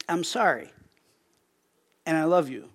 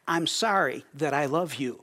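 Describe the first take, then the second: First: I'm sorry, and I love you, with a pause after sorry so the two thoughts stay separate; husband apologising to his wife: sorry, pause, then love you. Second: I'm sorry that I love you, run together with no pause after sorry; what the wife heard: sorry that I love you said in one breath. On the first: Sorry, then a gap, then love you. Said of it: "And I said to her simply". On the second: One unbroken phrase, no break after sorry. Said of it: "but what she heard was". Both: Retold or imitated.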